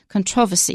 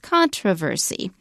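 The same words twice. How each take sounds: First: The word is stressed in the British way. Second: The word is stressed in the American way. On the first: "in British English, the stress is a bit different. It's controversy" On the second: "In American, it's controversy"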